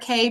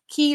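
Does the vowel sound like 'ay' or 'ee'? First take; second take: ay; ee. First: The word rhymes with 'say'. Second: The word rhymes with 'see'. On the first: "both are acceptable" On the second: "they pronounce it key"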